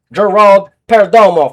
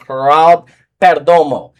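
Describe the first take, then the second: First: Gerald opened with a hard English J, loud and high; Anglicized name. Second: Gerald said with a breathy Spanish H at the start; Spanish-style name. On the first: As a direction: punch out Gerald as "jeh-RALD" before Perdomo. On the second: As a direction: say Gerald as "heh-RALD", stretched before Perdomo. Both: Shown as a demonstration. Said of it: "for those who fuck don't speak English".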